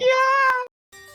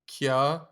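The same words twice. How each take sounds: First: It is said with loud, enthusiastic energy. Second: It is said flatly, without energy.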